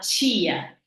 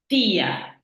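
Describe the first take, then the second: First: It is said in a carioca accent. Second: It is said in the speaker's own accent.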